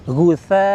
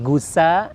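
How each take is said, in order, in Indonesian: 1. Konsonan di tengah itu bunyi th. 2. Konsonan di tengah itu bunyi s. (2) "awas menjadi gusa"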